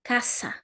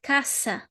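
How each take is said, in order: Both takes have the same delivery.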